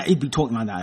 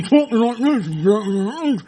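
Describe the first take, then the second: First: Said in the usual way. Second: Slow, muffled, distorted voice; talking inside TV. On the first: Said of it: "That's what I said". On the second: Shown as a demonstration. Man with a TV on his head, muffled voice. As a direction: garble it as if from inside a TV set.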